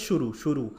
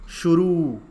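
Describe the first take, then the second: First: शुरू with a long drawn ऊ, the wrong way. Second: शुरू said loud with a pulled-out ऊ; emphatic correct form; correct stressed u. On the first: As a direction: show the mistake, stretching the रू in शुरू. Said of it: "तो वो शुरू नहीं होता है". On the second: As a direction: hit शुरू loudly, dragging the final ऊ. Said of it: "र के ऊपर खींच के ऊ आता है". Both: Shown as a demonstration.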